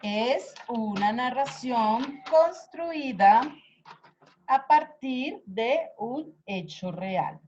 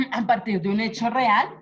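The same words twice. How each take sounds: First: Slow, deliberate dictation pace; dictating word by word, slowly. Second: Said in the usual way. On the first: Shown as a demonstration. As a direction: spell it out slowly for note-taking.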